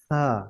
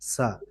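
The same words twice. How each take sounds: First: The first consonant is a soft sound between teeth. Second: The first consonant is a hard s sound. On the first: The speaker calls it right. "সা soft" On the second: The speaker calls it wrong. "আমরা তো সারা জীবন পড়ি সা"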